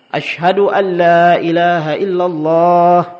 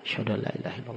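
First: It is said in a loud, full voice. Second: It is said very softly, almost under the breath. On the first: "kemudian diulangi lagi dengan suara yang keras" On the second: "dengan suara yang lirih. Kecil sekali"

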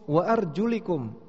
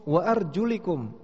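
First: The vowel after the L is 'i'. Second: The vowel after the L is 'i'.

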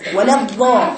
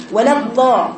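First: The letter sounds like a th with tongue out. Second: The same.

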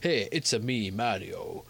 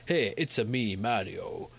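First: It is said with an Italian-sounding accent. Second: It is said with an Italian-sounding accent.

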